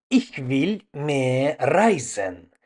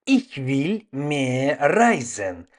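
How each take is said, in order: Both takes have the same delivery.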